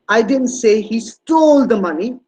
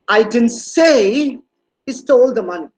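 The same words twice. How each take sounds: First: The stress falls on the word "stole". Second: The stress falls on the word "say". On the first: He did something with the money other than steal it. "He must have done something else with the money, but it's not stealing" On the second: It was implied but not said out loud. "No, it was not very verbal on my on my part"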